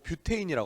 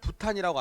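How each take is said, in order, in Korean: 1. 'byu'로 시작하고 'tein'으로 끝나요. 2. 'bu'로 시작하고 'tan'으로 끝나요. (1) "영어식 발음" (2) "독일어식 발음"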